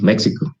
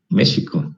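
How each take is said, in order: First: The word is pronounced with an American accent. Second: The x is pronounced the Mexican, Nahuatl way. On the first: This is how Americans say it. "podemos decir, como los, los gringos" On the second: This is the original form of the word. "debería decir México, es la palabra correcta, en náhuatl"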